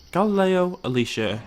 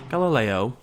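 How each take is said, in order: First: Higher, louder call of the name; emphatic call. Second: Said in the usual way. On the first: Real, not acted. Calling his dinosaur by name, emphatic. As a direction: call it out across the pen.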